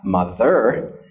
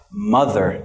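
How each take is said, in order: First: Slow mo-THER, "ther" punched in "mother"; wrong final stress. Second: MO-ther, weight on "mo" in "mother"; first-syllable stress. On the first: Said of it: "not mother". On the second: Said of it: "Here is the stress". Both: Shown as a demonstration.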